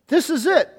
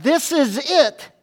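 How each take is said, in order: First: Exclaiming. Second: Said in the usual way. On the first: Retold or imitated. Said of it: "Adam exclaimed". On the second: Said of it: "loses its impact in our English translation".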